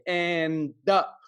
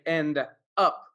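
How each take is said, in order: First: The two words are blended into one. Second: The two words are said separately. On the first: The speaker calls it right. "Notice the blending sounds. We say end up" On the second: The speaker calls it wrong. "We don't say end up"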